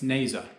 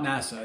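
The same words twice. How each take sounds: First: "nasa" said NAY-zuh, long a and a z sound; right pronunciation. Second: "nasa" said NA-suh, short flat a like in "cat"; wrong pronunciation. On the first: Correcting his own slip, "nasa" said the proper way, NAY-zuh. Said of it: "it's nasa". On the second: Correcting his own name for the space agency, "nasa" said wrong as NASS-uh. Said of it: "It's not nasa". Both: Shown as a demonstration.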